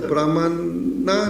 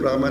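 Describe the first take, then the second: First: The final vowel is pronounced. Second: The final vowel is dropped.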